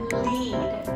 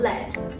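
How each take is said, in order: First: The vowel sound is long. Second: The vowel sound is short. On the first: It means to guide a group. "is more of a longer sound" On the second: It names the metal element. "It's more of a shorter sound"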